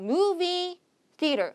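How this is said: The two words are split by a pause. It sounds like two separate words. The speaker calls it wrong. "두 단어가 알고 보면 한 단어인데 여러분들이 이제 두 개처럼 읽어버린 거죠"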